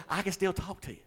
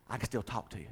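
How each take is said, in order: First: Higher, through real laughter; laughing, high-pitched retold reply. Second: Said in the usual way. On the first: Real, not acted. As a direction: repeat it while cracking up. Repeats the line while laughing.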